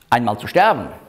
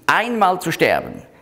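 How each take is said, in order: First: The word einmal is unstressed. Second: The word einmal carries strong emphasis. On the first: It happens at some point. The speaker calls it wrong. "Es heißt nicht" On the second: It happens only once, not twice. The speaker calls it right. "Darum hat die Elberfelder das auch kursiv gesetzt, damit man liest"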